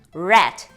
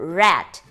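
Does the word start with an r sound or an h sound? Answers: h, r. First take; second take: r; r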